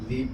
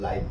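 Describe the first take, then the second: First: The vowel is a short 'ih' sound. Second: The vowel is a long 'eye' sound. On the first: It means to reside. "तो इसको लीव पढ़ते हैं" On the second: It means happening in real time. "इसको लाइव पढ़ते हैं"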